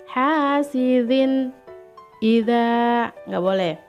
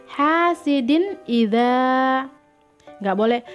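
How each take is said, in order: The two takes are said the same way.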